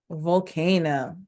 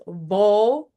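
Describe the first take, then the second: First: Volcano said slowly as one joined word; blended word. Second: Volcano, each beat clear; syllable demo. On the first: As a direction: glide vol, ca, no into one slow word. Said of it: "So let's put it together". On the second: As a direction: spell out volcano in beats. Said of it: "Volcano has three syllables". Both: Shown as a demonstration.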